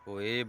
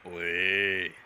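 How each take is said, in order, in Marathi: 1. हे साध्या, सामान्य आवाजात म्हटलं जातं. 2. हे खोल, घोगऱ्या आवाजात म्हटलं जातं. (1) "तुम्हाला काढून दाखवितो मी स्वतःच्याच आवाजात" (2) "अमरीश पुरीचा आवाज एकदम घोगरा आहे. ओये असा आवाज आहे"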